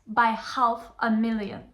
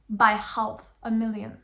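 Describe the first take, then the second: No difference in how they are said.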